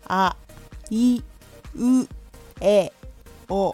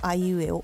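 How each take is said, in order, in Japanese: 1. 母音はくっきりしていて、口を大きく開けている。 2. 母音はこもっていて、ほとんど口が動いていない。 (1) "口を最大限に動かす" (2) "あんまり口を動かさないと"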